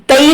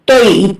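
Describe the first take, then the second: First: तई with a thin a in place of o; wrong light vowel. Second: तोई with a heavy, rounded o sound; correct heavy vowel. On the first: Teacher warning students of a mistake, तई with a light unrounded vowel. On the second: Teacher modelling the letter for students, तोई with heavy rounded vowel. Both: Shown as a demonstration. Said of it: "तई नहीं पढ़ेंगे".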